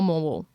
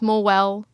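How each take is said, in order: First: The name uses the locals' pronunciation. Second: The name uses the outsiders' pronunciation. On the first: The speaker calls it right. "the locals call it Morwell" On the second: The speaker calls it wrong. "we've maybe been saying it wrong this whole time"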